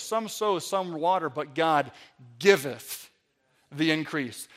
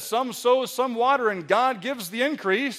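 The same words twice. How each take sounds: First: Slow low "giveth" set apart by pauses; stress on giveth. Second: Said in the usual way. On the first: Shown as a demonstration. Preacher quoting the verse, pausing heavily on "giveth". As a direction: lean on "giveth", drawn out and low. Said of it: "Let's just emphasize the word giveth". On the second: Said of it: "the Bible says".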